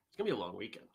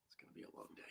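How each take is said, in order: First: Said in the usual way. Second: Breathy whisper, almost silent. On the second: Real, not acted. To the viewers, dreading the long day ahead, whispered. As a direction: murmur it under your breath, weary. Sighing over the coming day.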